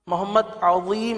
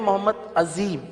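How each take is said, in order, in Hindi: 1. "z" की आवाज़ अरबी का एम्फैटिक zoe है। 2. "z" की आवाज़ सादा z है। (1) "किसी का नाम मोहम्मद अजीम है" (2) "हम कहते हैं मोहम्मद अजीम"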